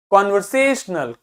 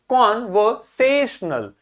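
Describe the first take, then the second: First: conversational as one word, stressed on से; से standing out within an unbroken conversational. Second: conversational slowly split, stress on से; slow teaching breakdown of conversational, से stressed; syllable by syllable. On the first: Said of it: "से आपको अलग से सुनाई". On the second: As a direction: break conversational into parts, leaning on से. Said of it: "इस पे थोड़ा ज्यादा जोर देना है". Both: Shown as a demonstration.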